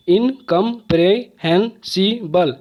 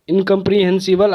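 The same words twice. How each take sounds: First: incomprehensible slowly split into six separate beats; syllable by syllable. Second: Said in the usual way. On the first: Shown as a demonstration. Teacher showing students six syllables, incomprehensible slow and broken up. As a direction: break incomprehensible apart, pausing after each syllable. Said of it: "छः बार में". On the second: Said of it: "आप कितने बार में बोलते हैं".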